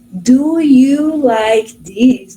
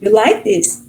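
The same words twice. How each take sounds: First: Very slow, every word drawn out; textbook English question. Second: "You like this" as a quick question, pitch rising at the end; question by intonation. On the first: Teacher shows how language courses teach questions, textbook slow English question. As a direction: stretch out DO, YOU, LIKE and THIS one by one. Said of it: "muitas das coisas a gente aprende no, no cursinho, né, que pergunta".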